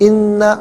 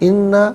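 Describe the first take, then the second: Both takes have the same delivery.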